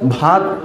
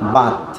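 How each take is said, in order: First: The first consonant is aspirated, bh. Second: The first consonant is unaspirated, plain b. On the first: The speaker calls it right. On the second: The speaker calls it wrong.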